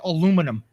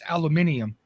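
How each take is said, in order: First: It is said without the extra 'ee' syllable. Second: It is said with an extra 'ee' syllable. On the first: The speaker calls it wrong. "most Americans say aluminum" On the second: The speaker calls it right. "aluminium is the proper pronunciation of it because there is an I in it"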